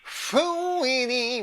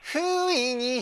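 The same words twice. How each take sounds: First: The consonant is strongly emphasized. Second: The consonant is said in a plain way. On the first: "みたいな、この子音の使い方がね、すごくかっこいい" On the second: "じゃなくて"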